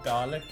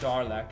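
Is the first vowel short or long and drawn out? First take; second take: short; long. First: The first vowel is short and clipped. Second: The first vowel is long and drawn out. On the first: The speaker calls it right. "Dalek, not Darlek" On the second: The speaker calls it wrong. "not Darlek"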